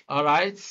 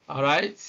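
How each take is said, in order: The two takes are said the same way.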